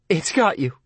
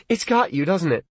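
First: Tearful, wavering. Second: Put-on frightened girl's voice. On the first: Acted. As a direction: voice wavering toward tears. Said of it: "her voice was wavering toward tears". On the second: Lee pleading on phone.

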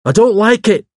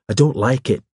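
First: High, loud, stubborn insistence; obstinate. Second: Shrill. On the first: Hawes repeats his objection to the vicar, obstinately. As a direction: dig in, pitched right up and forceful. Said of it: "repeated Hawes obstinately". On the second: Hawes objects to a visitor dropping by, a little shrilly. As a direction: object fretfully, without extra volume. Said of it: "His voice rose shrilly". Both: A narrator's reading.

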